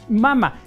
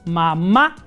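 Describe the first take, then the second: First: The stress is on the first syllable. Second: The stress is on the last syllable. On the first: This is the original form of the word. "Originalmente, dicen los especialistas, que era mama" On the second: This is the form used in Spanish today. "le pusimos el acento en la última A. Entonces decimos mamá"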